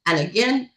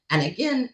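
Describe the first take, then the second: No difference in how they are said.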